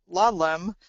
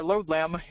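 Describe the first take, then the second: First: Lodlem with a short "lod", like "lahd-lem"; alternative pronunciation. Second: Lodlem with a long o, like "load-lam"; alternative pronunciation. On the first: Webinar presenter unsure of the name, offering lodlem as "LAHD-lem". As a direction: say lodlem with an open "ah" in the first syllable. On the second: Webinar presenter unsure of the name, offering lodlem as "LOHD-lam". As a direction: say lodlem as "LOHD-lam", first syllable rhyming with road. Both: Shown as a demonstration. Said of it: "not quite sure how they pronounce it".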